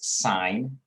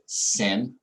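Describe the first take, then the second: First: It is said with a long 'i', like 'sign'. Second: It is said with a short 'i', like 'sin'. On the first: The speaker calls it right. "It is sine" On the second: The speaker calls it wrong. "please do not say the word sin of an angle"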